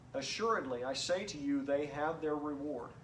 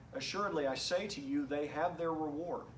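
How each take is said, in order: The two takes are said the same way.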